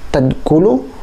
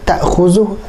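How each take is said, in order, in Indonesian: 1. Kata itu diucapkan dengan bunyi 'd'. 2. Kata itu diucapkan dengan bunyi 'kh'. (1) "Ayat yang dia baca itu" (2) "lain tadkulu dengan ta'khuzu"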